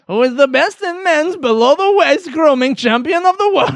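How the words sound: It is said in a Borat impression voice.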